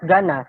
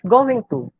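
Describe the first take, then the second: First: The words are run together as one reduced word. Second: Both words are said fully and separately. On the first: This suits casual talk. The speaker calls it wrong. "not gonna" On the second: This suits a formal situation. The speaker calls it right. "our pronunciation of going to is going to"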